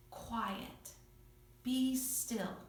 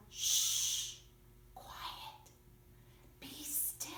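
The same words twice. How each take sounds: First: Calm command. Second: Whisper. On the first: Acted. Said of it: "He just spoke. He didn't yell". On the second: Shown as a demonstration. Teacher to children, repeat after me, hushed whisper. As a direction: hush it in a soft whisper. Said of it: "You say it. Go".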